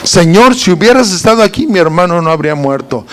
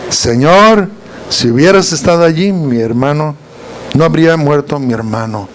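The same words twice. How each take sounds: First: Quick, matter-of-fact complaint; brisk greeting. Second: Humble plea. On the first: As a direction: rattle it off, standing upright. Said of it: "Fue el mismo saludo". (reclamo rápido y directo) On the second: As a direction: plead as if kneeling at his feet. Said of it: "pero fue diferente la actitud". (súplica humilde y suave, postrada) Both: Retold or imitated.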